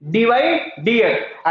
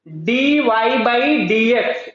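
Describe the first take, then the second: First: "D Y dx" read slowly with no "by" between the letters; correct reading. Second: "D Y by dx" read slowly, the word "by" spoken between the letters; the habitual reading "D Y by dx" with "by" said out; wrong reading. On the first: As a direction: say "D Y dx" straight, dropping the "by". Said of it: "क्या पढ़ेंगे". (बिना "by" के धीरे से: "D Y dx") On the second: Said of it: "ये गलत मैं पढ़ रहा हूं". ("by" के साथ पढ़ना: "D Y by dx") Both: Shown as a demonstration.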